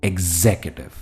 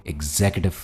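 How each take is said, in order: The two takes are said the same way.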